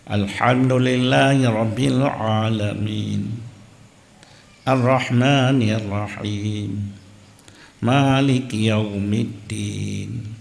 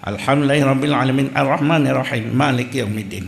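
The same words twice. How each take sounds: First: The reciter stops at the end of each verse. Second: The verses run together without stopping. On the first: The speaker calls it right. "Yan menyok tawakaf ba akhir ayat" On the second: The speaker calls it wrong. "Tapi yang salah"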